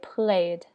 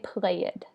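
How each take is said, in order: First: The ending is a plain d sound. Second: The ending is said as an extra syllable. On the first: The speaker calls it right. "We say played. Okay, there is not an extra syllable" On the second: The speaker calls it wrong. "We don't say played. That's wrong"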